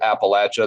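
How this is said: It is said with the Southern pronunciation. The speaker is from the South. "I do pronounce it Appalachia, That's a Southern typical pronunciation"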